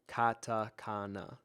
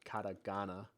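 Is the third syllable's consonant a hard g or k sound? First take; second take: k; g. First: The third syllable starts with a k sound. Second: The third syllable starts with a g sound. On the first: The speaker calls it right. "Katakana, not katagana" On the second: The speaker calls it wrong. "not katagana"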